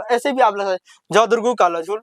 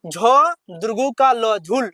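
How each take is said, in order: First: Said in the usual way. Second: झ दुर्गु का ल झुल read slower, each part spaced; careful slower reading. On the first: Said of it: "ऐसे भी बोल सकते हैं". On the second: Shown as a demonstration. Teacher showing pupils the correct careful way. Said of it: "मगर सही तरीका यही है".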